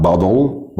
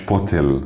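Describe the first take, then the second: First: Bottle said as "bah-dol"; T turned to D. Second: Bottle said as "bo-tel"; wrong hard T. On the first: Teacher modelling bottle for learners, "bah-dol". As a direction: soften the t in bottle to d, rounded L. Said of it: "التي بنحولها لده". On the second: Teacher showing how bottle is not said, hard-t "bo-tel". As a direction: keep a hard t in bottle, unrounded ending. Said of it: "ما قلناهاش bottle". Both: Shown as a demonstration.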